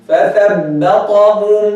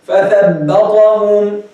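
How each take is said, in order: Both takes have the same delivery.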